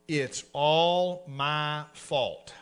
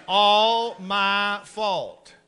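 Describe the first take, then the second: First: "It's all my fault" stretched very slowly and low; slow drawn-out confession. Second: "It's all my fault" stretched very slowly; slow drawn-out confession. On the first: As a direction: spell it out word by word, slowly. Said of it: "Get this out in English". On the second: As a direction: drill it slowly like a lesson. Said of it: "Shut up and repeat after me". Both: Shown as a demonstration.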